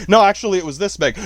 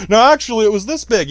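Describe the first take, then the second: First: Said in the usual way. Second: Higher and louder, mock-insistent; "No, actually, it was this big" with "actually" pushed high and loud, like a fisherman inflating his catch; mock fisherman bragging. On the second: Bragging about the fish he caught yesterday, mock-insistent and louder. Fish story joke, exaggerating size.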